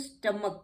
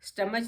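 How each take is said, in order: First: The word ends with a k sound. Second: The word ends with a ch sound. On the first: The speaker calls it right. "इसको स्टमक कहते हैं" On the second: The speaker calls it wrong. "स्टमच नहीं कहते हैं"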